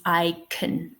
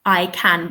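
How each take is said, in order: First: "can" weakened to "kun"; unstressed "can" with a schwa; reduced schwa form. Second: "can" with a clear full "a"; stressed, unreduced "can"; full strong form. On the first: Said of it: "we're not stressing the word can". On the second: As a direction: say "can" slowly with its full vowel. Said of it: "I can becomes I can". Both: Shown as a demonstration.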